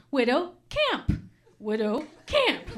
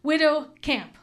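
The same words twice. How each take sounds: First: Widow camp drawn out slowly, first up then down; slow savoring. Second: Said in the usual way. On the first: Shown as a demonstration. Comic savoring Widow camp slowly for the crowd. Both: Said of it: "Just think of the juxtaposition".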